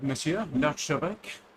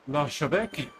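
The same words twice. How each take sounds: First: Monsieur l'archevêque in French, rising on monsieur; French pronunciation. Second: L'archevêque said the French way, arsh-eh-vek; French pronunciation. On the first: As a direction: greet him as Monsieur l'archevêque, French style. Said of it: "I'm so multicultural". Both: Shown as a demonstration.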